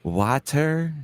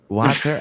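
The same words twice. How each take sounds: First: Water? said as wah-ter with a short ah; their water. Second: Water? as woh-ter, New Orleans style; his own water. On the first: Trying out the way friends say water? as wah-ter. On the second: After trying theirs, he says Water? his own way, woh-ter. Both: Shown as a demonstration. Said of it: "How am I supposed to say it".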